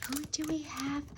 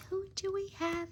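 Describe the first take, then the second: First: Breathy whispered question. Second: Said in the usual way. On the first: Shown as a demonstration. Host whispers to viewers while opening the box. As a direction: hush it to the viewers.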